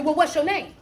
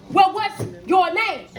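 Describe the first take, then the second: First: Said in the usual way. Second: Slow, weighted "what's your name", with spaced words; emphatic repeat. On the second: Retold or imitated. Coach repeating angel's question to Jacob, slow and pointed. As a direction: draw out "what's" and "name" deliberately.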